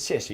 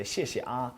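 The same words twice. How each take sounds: First: Said in the usual way. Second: 谢谢啊 ending on a soft trailing ah; ah added at the end. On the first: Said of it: "Instead of just". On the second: Shown as a demonstration. Teacher models friendlier thanks, trailing ah. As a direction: add a light ah after 谢谢. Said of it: "you say".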